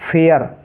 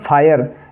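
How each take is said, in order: First: The vowel sounds like 'air'. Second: The vowel sounds like 'eye'. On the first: The speaker calls it right. "तो इसको हम फेयर पढ़ेंगे।" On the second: The speaker calls it wrong. "अगर हिंदी अंग्रेजी वर्णमाला के हिसाब से इसको पढ़ें"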